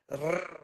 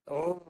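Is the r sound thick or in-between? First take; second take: in-between; thick. First: The r sounds in-between, neither thick nor thin. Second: The r sounds thick, with the tongue back raised. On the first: "Kalau tak naik pangkal lidah, dia bunyi macam R... Tebal pun tidak, nipis sangat pun tidak" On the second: "tu bunyi tebal tu guna hujung belakang lidah, tapi pangkal lidah tu yang bagi tebal"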